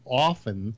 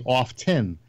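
First: Often with a silent T; West Coast "often". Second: Often with the T sounded; East Coast "often". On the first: Comparing coasts for Jack, often without the T. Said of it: "people on the West Coast say often". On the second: Comparing coasts for Jack, often with a clear T. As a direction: say often as OFF-ten. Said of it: "people on the East Coast say often". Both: Shown as a demonstration.

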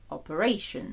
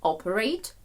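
First: Operation stressed on RA; op-er-A-tion, weight near the end; stress shifted to third syllable. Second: Operate stressed on OP; OP-er-ate, weight on the opening syllable; stress on first syllable. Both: Shown as a demonstration. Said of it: "Також у нас змінюється наголос".

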